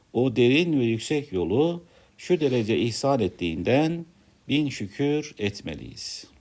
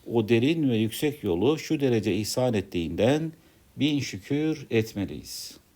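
The two takes are said the same way.

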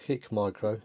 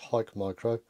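First: The first syllable has a short 'i', like 'hick'. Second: The first syllable has a long 'i', like 'hike'. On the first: The speaker calls it wrong. "It's not HIKMICRO" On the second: The speaker calls it right. "There's a silent E in here for us English speakers"

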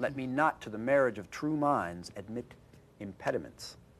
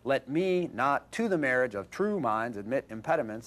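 First: It follows natural speech rhythm and meaning. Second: It has a regular, bouncing da-DUM rhythm. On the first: The speaker calls it right. "you wouldn't know it from that reading of it" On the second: The speaker calls it wrong. "it just doesn't sound right"

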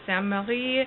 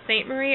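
First: The name is said with French sounds. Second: The name is said with English sounds.

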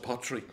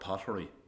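First: The middle vowel drops, so it sounds like pot-tree. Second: All three syllables of the word are fully pronounced. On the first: The speaker is from the town. "if you were to write it down, it's like a pot tree" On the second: The speaker is not from the town. "People will say, oh, Arklow Pottery. We know they're not from Arklow"

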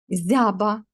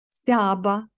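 First: The word begins with a soft z sound. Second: The word begins with an st cluster.

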